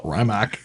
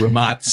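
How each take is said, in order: First: Rimac said RYE-mack; American pronunciation. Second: Rimac said ree-MAHTS; correct pronunciation. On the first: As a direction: Americanize Rimac with a long I and hard K. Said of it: "give the American pronunciation". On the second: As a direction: finish Rimac with a TS sound. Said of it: "correct pronunciation for the company". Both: Shown as a demonstration.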